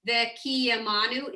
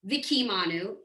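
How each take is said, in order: First: The first vowel is a short, reduced 'eh' sound. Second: The first vowel is a full 'ee' sound. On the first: The speaker calls it right. "You have to put a eh, like a, it's not a full vowel" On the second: The speaker calls it wrong. "you don't say Vikimanu"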